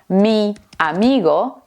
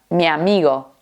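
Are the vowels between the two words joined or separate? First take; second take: separate; joined. First: The i and a are said separately. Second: The i and a blend together. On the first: "en vez de decir" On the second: "Juntamos la I con la A"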